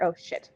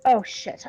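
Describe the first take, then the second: First: Low, soft mutter under the breath. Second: Said in the usual way. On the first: Acted. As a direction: mutter it quietly to yourself. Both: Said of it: "I sort of mutter".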